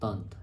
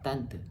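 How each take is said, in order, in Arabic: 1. تُقال بنطق فرنسي. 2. تُقال بنطق إندونيسي. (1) "جت من كلمة فرنسية" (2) "إحنا بنقول"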